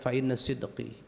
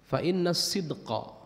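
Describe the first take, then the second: First: The last word ends in an 'i' vowel. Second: The last word ends in an 'a' vowel. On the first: The speaker calls it wrong. "ini di ada kesalahan cetak di sini" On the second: The speaker calls it right. "Ini kan isim inna harus mansub"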